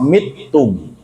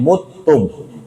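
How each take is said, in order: First: The first vowel is an 'i' sound. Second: The first vowel is a 'u' sound. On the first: "dan ada yang baca dengan kasroh" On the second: "dengan dibaca dhammah huruf mim"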